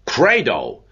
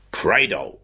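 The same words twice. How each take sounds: First: "Credo!" called out a touch louder and higher, mock-heroic; a lightly voiced roar of faith; lion's shout. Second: Said in the usual way. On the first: A narrator's reading. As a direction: proclaim "Credo!" like a lion in a council hall. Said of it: "shouted out with the voice of a lion". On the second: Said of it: "said Mister Cunningham".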